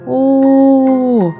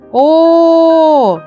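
First: The vowel is said quietly. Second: The vowel is said loudly. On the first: "може співати звук тихо" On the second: "а може голосно"

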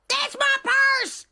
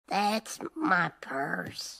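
First: It is shouted loudly. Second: It is said quietly, without shouting.

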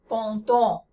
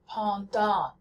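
First: The nasal vowel is French, with rounded lips. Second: The nasal vowel is American, with unrounded lips. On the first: The speaker calls it right. "So that's how you say the words" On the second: The speaker calls it wrong. "most Americans make the mistake of saying"

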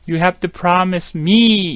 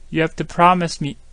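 First: The word 'me' is full and stressed. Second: The word 'me' is weak and reduced. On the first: The speaker calls it wrong. "이러지 않습니다" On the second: The speaker calls it right. "매에 가깝게 했죠"

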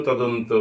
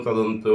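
The two takes are said the same way.

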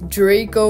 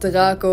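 First: The name is pronounced the English way. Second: The name is pronounced the Dutch way.

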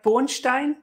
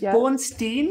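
First: The name is given a German pronunciation. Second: The name is given an American pronunciation. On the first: The speaker calls it wrong. "I read their surname as if it was German" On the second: The speaker calls it right. "because it's American"

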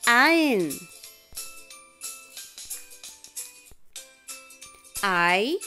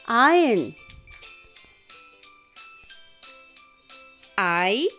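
The two takes are said the same way.

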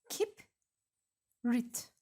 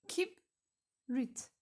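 No difference in how they are said.

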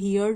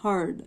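First: The vowel sounds like the word 'here'. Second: The vowel sounds like the word 'her'. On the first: The speaker calls it wrong. "ये हियर्ड नहीं है" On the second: The speaker calls it right. "This is हर्ड"

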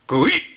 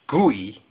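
First: The vowel is cut off by an abrupt stop. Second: The vowel trails off without an abrupt stop. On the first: The speaker calls it right. "It should be an abrupt stop" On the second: The speaker calls it wrong. "it's not pronounced gooey"

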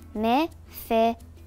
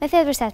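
First: The name is said slowly. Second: The name is said fast.

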